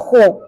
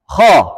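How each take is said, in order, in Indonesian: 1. Bibir dibulatkan, menghasilkan bunyi seperti "u". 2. Pangkal lidah terangkat, bibir tidak dibulatkan. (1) "bukan khu" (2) "kha terangkat pangkalnya"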